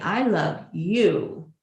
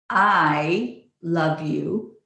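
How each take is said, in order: First: The stress is on "you". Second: The stress is on "I".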